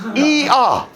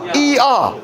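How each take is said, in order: First: Two full vowels are said one after another. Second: Two full vowels are said one after another.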